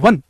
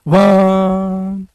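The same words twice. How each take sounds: First: The word is said short and plain. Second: The word is drawn out and lingers. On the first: It is what the speaker says. "जब आप कमरे में बोलेंगे वन" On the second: It is how it sounds in an empty room. "खाली कमरे में आवाज ऐसे आएगी वन"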